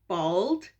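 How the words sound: The word is said in an American accent. "American English is like bald"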